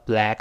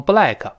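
First: BLACK with a long, wide-spread "a"; wide open vowel. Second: "black" as "bu-lai-ke", with added vowels; mispronounced black. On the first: Teacher models the right black for learners, wide vowel. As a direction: stretch the a in "black", mouth pulled wide. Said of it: "这个 a就是梅花音". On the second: Teacher mimics many learners' wrong black, extra vowels. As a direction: say "black" badly, diphthong and extra final syllable. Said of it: "好多人把它读成black". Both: Shown as a demonstration.

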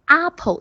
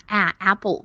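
First: "apple" with a broad ah as its first vowel; imitated mispronunciation. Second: 啊 and apple with English short a; standard vowel demo. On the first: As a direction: mimic the student's "apple", opening on ah. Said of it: "不要发成啊". (模仿学生把 apple 的元音读成“啊”) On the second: Shown as a demonstration. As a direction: model "apple" opening on the a of cat. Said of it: "发的都非常标准". (标准示范 apple 开头的短元音 a)

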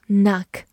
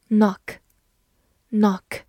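First: "knock" with an open American ah vowel; "knock" with an unrounded ah; American pronunciation. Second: "knock" with a rounded British short o; "knock" rhyming with British "clock"; non-American pronunciation. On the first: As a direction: say "knock" like "nahk", American style. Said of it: "美式发音读作". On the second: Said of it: "美式发音读作knock". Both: Shown as a demonstration.

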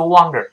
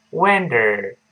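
First: "wonder" misread like Chinese wang-der; emphatic bad example, "wonder" as "wahng-der"; mispronunciation demo. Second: "Wonder" with a light d and curled r ending; correct pronunciation demo. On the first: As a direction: say "wonder" wrongly with a wang first syllable. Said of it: "不要读wonder，弄成别的词了". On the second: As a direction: keep the d, curl the tongue on "Wonder". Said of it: "不要读wonder". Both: Shown as a demonstration.

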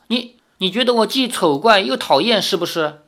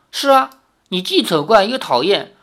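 First: Higher, stammered hurt question; barely past crying. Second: Higher, lightly teasing agreement; laughing tease, understated. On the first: Girl asking suitor if he finds her ugly, tearful. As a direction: ask it haltingly, with mild tearfulness. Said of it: "赵灵儿稍止哭声". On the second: Suitor teasing the crying girl, lightly amused. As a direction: agree playfully, without an actual laugh. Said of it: "李逍遥笑道". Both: A narrator's reading.

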